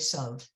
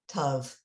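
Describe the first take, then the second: First: The word begins with an s sound. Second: The word begins with a t sound.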